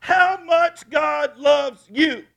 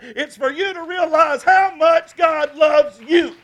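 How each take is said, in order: First: Loud, high, very slow shout; slow preached shout. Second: Loud, high, slow shout; preached shout. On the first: Pastor repeating his point even slower, shouting. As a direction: stretch every word out. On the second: Pastor shouting the key point to his church. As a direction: hammer each word home. Preacher repeats the climax line. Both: Acted.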